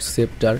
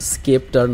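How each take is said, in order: First: The word begins with a plain s sound. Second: The word begins with an sk sound. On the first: The speaker calls it wrong. "Not সেপ্টার" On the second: The speaker calls it right. "উচ্চারণটা হবে হচ্ছে স্কেপ্টার"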